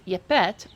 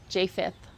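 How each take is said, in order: First: The name begins with a 'y' sound. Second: The name begins with a 'j' sound. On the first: This is a reconstructed ancient Hebrew form. "In my uh, interpretation, the reconstructed Paleo Hebrew, I I use Yepet" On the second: This is the familiar common form. "however you want to pronounce it"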